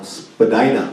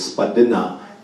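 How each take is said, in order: First: It is said the common English way. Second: It is said the original Indigenous way. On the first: It is a corrupted form of the word. The speaker calls it wrong. "it's another corrupted word" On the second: It is the word as said in the original language. The speaker calls it right. "It's a low valley in speaking our language"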